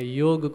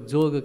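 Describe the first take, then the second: First: The word begins with a y sound. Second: The word begins with a j sound. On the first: This is the standard form. "योग को जोग कहते हैं" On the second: This is how people commonly say it. "योग को जोग कहते हैं"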